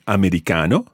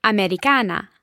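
First: "americano" ending on a clear O; "americano", the final O sounded out; masculine O ending. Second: "Americana" ending on a clear A; "Americana", the final A sounded out; feminine A ending. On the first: Teacher models the male form for [name], O ending. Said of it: "So I'll say again". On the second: [name] answers with the female form, A ending. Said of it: "And you would say?". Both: Shown as a demonstration.

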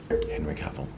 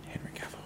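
First: Said in the usual way. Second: Hushed, voiceless whisper of the name; whispered summoning. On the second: Pretend. Summoning a celebrity by saying his name, whispered. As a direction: whisper it like a playful incantation.

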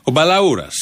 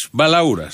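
First: Said in the usual way. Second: Lightly put-on voice for the name Μπαλαούρας; mock Balaouras voice. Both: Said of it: "Εγώ δεν μιλάω έτσι".

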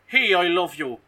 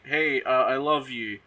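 First: Raised, louder mock-Irish lilt; Irish accent. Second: Said in the usual way. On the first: Man declaring love to his lady, in an Irish accent. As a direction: put on a playful Irish accent. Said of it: "'Cause he's Irish".

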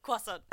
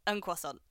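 First: Croissant said kwah-sawn the French way; French accent. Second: Put-on plain English accent. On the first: Shown as a demonstration. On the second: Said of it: "and then you're just like, un croissant".

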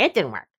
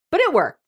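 First: Low, deadpan complaint; grudging report. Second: High, emphatic concession; exasperated admission. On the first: Client wishing to tell the therapist it failed, low grudging report. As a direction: drop low for the grudging comeback. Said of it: "wanted to go back and say". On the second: Mom admitting the therapist's fix worked, high exasperated admission. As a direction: lift the pitch to concede it. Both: Acted.

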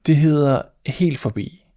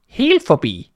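First: Said in the usual way. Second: High, louder shocked repeat of the name; mouse cries out. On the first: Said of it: "sagde katten". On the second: Acted. Mouse stunned by the name, crying it out high. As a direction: shriek it back in disbelief. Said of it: "råbte musen".

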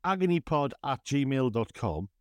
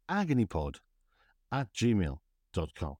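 First: Radio voice. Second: Slow, lower radio DJ read; a hint of a radio presenter; deep chesty voice. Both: Shown as a demonstration. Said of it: "I'm practicing using my radio voice".

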